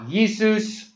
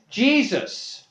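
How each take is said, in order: First: The name begins with a 'y' sound. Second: The name begins with a 'j' sound. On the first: This is the Latin pronunciation. "They also didn't pronounce J's in Latin" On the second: This is the English pronunciation. "Transliterated to become in English"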